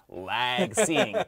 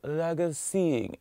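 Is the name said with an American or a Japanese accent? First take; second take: American; Japanese. First: The name is said with a broad American accent. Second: The name is said with a Japanese accent. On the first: "I'm giving the John Wayne Lag Seeing" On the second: "when they pronounce it in Japanese, it's like"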